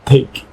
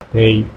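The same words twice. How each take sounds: First: The t has a strong puff of air. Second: The t is soft, with no puff of air. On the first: "if you do it in English" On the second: "as you're pronouncing it with the Spanish accent"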